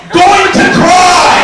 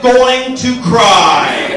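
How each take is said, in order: First: High, drawn-out mock scream; screamed refrain. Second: Very slow, loud, drawn-out words; stretched refrain. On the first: Comic on an unnoticed good haircut, screamed punchline. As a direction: blow up the refrain into a full yell. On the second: Acted. Comic on a bad haircut, long-drawn mock wail. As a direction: drag out every word of "going to cry".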